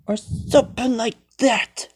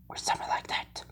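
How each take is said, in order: First: Said in the usual way. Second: Breathy whisper, no voice at all. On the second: Acted. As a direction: whisper it to yourself. Same phrase later said aloud.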